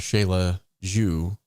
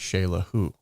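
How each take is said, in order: First: The second word starts with a J sound. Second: The second word starts with an H sound. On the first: The speaker calls it wrong. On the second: The speaker calls it right.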